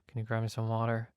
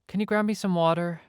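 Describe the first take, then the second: First: It is mumbled quietly under the breath. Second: It is said clearly at a normal volume.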